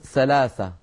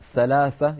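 First: The consonants are pronounced as 's'. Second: The consonants are pronounced as 'th'. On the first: It means ease. The speaker calls it wrong. "يقولون سلاسة" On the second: It means three. The speaker calls it right. "بدل ثلاثة"

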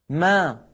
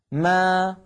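The two takes are said the same way.

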